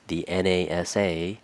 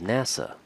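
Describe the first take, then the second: First: Each letter is said separately. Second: It is said as a single word. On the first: "Instead of saying" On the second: "we pronounce it as NASA"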